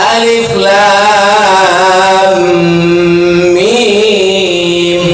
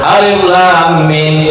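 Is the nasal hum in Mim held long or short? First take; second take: long; short. First: The nasal hum is long and full. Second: The nasal hum is short and weak. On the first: The speaker calls it right. "Ya, terus" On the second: The speaker calls it wrong. "Kurang lama tuh, kurang dengung Ustaz"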